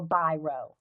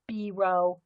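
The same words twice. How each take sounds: First: Biro said as BY-roh; alternative pronunciation. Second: Biro said as BEE-roh; French-style pronunciation. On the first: Offering viewers another way to name the inventor, Biro pronounced BY-roh. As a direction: say Biro with an "eye" in the first syllable. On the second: Naming the pen's inventor to viewers, Biro pronounced BEE-roh. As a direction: say Biro with an "ee" in the first syllable. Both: Shown as a demonstration. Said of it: "however you pronounce it".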